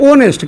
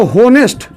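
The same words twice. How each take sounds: First: ऑनेस्ट with the H silent; correct pronunciation. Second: होनेस्ट with a sounded H at the front; wrong pronunciation. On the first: Teacher answering how it is read, ऑनेस्ट with silent H. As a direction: start ऑनेस्ट straight on the open "o" vowel. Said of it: "इसको क्या पढ़ते हैं?". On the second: Teacher showing students the misreading, होनेस्ट with the H pronounced. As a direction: say होनेस्ट starting on an audible "ho". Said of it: "होनेस्ट नहीं पढ़ते हैं". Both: Shown as a demonstration.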